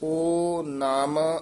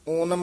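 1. ਅੱਖਰ ਵਿਰਾਮ ਨਾਲ ਵੱਖ-ਵੱਖ ਬੋਲੇ ਜਾਂਦੇ ਹਨ। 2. ਅੱਖਰ ਇੱਕ ਸ਼ਬਦ ਵਾਂਗ ਇਕੱਠੇ ਬੋਲੇ ਜਾਂਦੇ ਹਨ। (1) "ਇੱਥੇ ਵਿਸਰਾਮ ਹੈ" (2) "ਓਨਮ ਇਕੱਠਾ ਨਹੀਂ ਕਹਿਣਾ"

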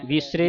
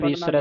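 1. ਸ਼ਬਦ 'e' ਸਵਰ ਨਾਲ ਖਤਮ ਹੁੰਦਾ ਹੈ। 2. ਸ਼ਬਦ 'ai' ਸਵਰ ਨਾਲ ਖਤਮ ਹੁੰਦਾ ਹੈ। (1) "ਵੀਸਰੇ ਨਹੀਂ ਪੜਨਾ" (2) "ਵੀਸਰੈ ਦਲਾਵਾਂ ਦੇ ਨਾਲ"

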